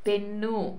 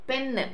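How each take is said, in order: First: The word ends in an added vowel sound. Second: The word ends in a consonant sound. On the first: This is the Telugu adapted form. "పెన్నుగా మార్చుకున్నాం" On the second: This is the English form. "పెన్ అని పలకటం జరుగుతుంది ఆంగ్లంలో"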